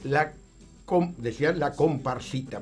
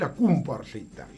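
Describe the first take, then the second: First: The first vowel is an o sound. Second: The first vowel is a u sound. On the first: It is the ordinary pronunciation. "ahí viene la comparsita" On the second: It is how an Italian immigrant said it. "pero él decía la cumparsita, o sea, la deformación fonética"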